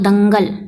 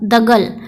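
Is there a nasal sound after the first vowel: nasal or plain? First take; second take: nasal; plain. First: The first syllable has a nasal sound. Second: The first syllable has no nasal sound. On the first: The speaker calls it right. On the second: The speaker calls it wrong.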